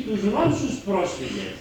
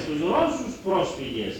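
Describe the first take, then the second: No difference in how they are said.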